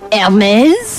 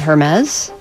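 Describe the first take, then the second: First: The word begins with no H sound. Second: The word begins with an audible H sound. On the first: The speaker calls it right. "I think the H is silent" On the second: The speaker calls it wrong. "I don't think you say it like that"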